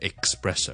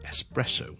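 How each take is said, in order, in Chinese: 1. 第一个音节发 'ks' 音。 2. 第一个音节发普通的 's' 音。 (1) "都會將佢咧係錯誤讀成咧espresso" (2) "只需要espresso"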